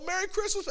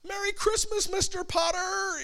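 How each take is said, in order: First: High mock yell; mock yelled Christmas greeting; imitating a yell. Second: High mock Jimmy Stewart yell; mock yelling greeting from the film; imitating a yell. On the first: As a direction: bark it up high like the film. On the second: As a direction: yell it much higher, hammed-up. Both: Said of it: "Everything is a yell".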